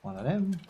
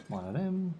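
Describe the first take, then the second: No difference in how they are said.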